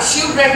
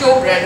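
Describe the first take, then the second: First: The first part sounds like 'shiv'. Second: The first part sounds like 'show'. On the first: The speaker calls it wrong. "शिव bread नहीं है" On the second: The speaker calls it right. "शो bread है"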